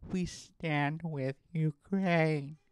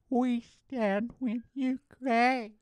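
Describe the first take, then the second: First: Slow, drawn-out mocking earnestness; mock earnest slogan. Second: Very slow and much higher, sarcastically sappy; mock earnest slogan, pitched up. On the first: Mocking Instagram posters, slow and earnest. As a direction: parody a solemn post. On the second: Mocking Instagram posters, high and sappy. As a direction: stretch it high and syrupy. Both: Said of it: "saying things like".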